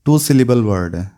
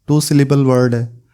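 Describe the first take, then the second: No difference in how they are said.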